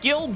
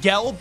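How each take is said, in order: First: The vowel is an I sound, as in 'gill'. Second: The vowel is an E sound, as in 'gel'. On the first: The speaker calls it wrong. "he said it weird. It was like Gilb" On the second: The speaker calls it right. "he said Gelb"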